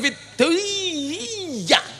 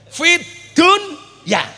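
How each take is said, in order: First: The phrase is drawn out far too long. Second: The phrase is said briefly, without prolonging. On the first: The speaker calls it wrong. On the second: The speaker calls it right.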